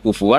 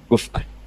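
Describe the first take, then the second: First: The middle consonant is a w sound. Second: The middle consonant is a glottal stop. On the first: "Kalau dibaca wawu" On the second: "itu mahmus"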